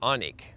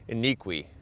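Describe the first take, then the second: First: The name is said with two syllables. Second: The name is said with three syllables. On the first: The speaker calls it right. "but it's Anik" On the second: The speaker calls it wrong. "I would have probably said Iniqui"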